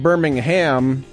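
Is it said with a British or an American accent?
American. It is said the American, Alabama way.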